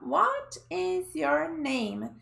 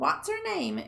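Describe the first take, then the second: First: Each word is said separately and in full. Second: The words are joined together and contracted. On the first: "a gente fica esperando a pessoa falar" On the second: "E de repente sai um What's your name? E parece que é outra frase"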